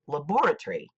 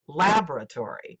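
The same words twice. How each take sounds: First: The stress is on the second syllable. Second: The stress is on the first syllable. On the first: This is how it is said in the UK. "In the U K, the word is pronounced laboratory, with the second syllable accented" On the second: This is how it is said in America. "The American way of pronouncing the word is laboratory, with the first syllable accented"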